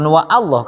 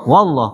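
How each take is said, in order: First: Wa and Allah are said as separate words. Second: Wa runs straight into Allah without a break. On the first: The speaker calls it wrong. "Bukan wa Allah kan?" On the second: The speaker calls it right. "Wallah kan?"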